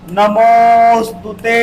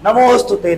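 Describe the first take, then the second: First: नमोस्तुते with the ओ held very long; नमोस्तुते chanted with a prolonged ओ; pluta vowel. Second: Said in the usual way. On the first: Shown as a demonstration. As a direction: stretch the मो in नमोस्तुते slowly. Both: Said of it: "ओ को आपने तीन बार पढ़ा".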